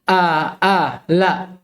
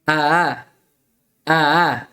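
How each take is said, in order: First: Both glottal stops are pronounced fully and clearly. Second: The second glottal stop is quick and softened. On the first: The speaker calls it wrong. "tidak seperti membaca dua hamzah" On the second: The speaker calls it right. "Tapi dipercepat"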